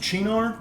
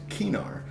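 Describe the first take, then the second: First: The name is pronounced the Italian way. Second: The name is pronounced the Latin way. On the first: This is the brand's official pronunciation. The speaker calls it wrong. "that's how you'd pronounce it if it was an Italian word" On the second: This follows the word's Latin origin. The speaker calls it right. "The name comes from the Latin genus name for artichokes, so it should be pronounced Cynar"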